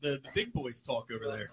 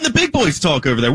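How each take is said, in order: First: The line is said weakly, without force. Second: The line is said loudly and forcefully. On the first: The speaker calls it wrong. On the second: The speaker calls it right.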